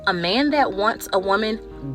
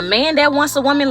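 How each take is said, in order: First: The phrase is spoken slowly and deliberately. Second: The phrase is spoken at a normal pace.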